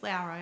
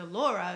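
First: The first vowel is an 'ow' sound. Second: The first vowel is not an 'ow' sound. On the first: This is how the owner of the name says it. The speaker calls it right. "she corrects them and says, actually, it's Laura" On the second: This is how most people say the name. The speaker calls it wrong. "everyone calls her Dr. Laura"

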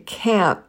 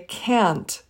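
First: The final T is dropped. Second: The final T is pronounced.

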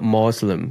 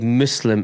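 First: It has an Americanized pronunciation. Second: It has a non-American pronunciation. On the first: The speaker calls it wrong. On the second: The speaker calls it right.

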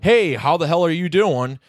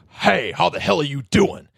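First: It sounds like a friendly, joking greeting. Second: It sounds negative and insulting, like an attack.

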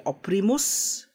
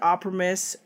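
First: The word is said in an Italian-style accent. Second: The word is said in a plain accent. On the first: "if you were gonna say it in an Italian accent, it would be Oprimus" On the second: "you could say I've said Operimus"

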